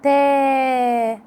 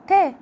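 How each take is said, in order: First: تا with the alif held long; drawn-out تا for the long vowel. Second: تا said short with a quick fatha; تا as a brief fatha; short vowel. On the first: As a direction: stretch تا out. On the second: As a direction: clip تا short. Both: Shown as a demonstration. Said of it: "لكن لما مديها بالألف".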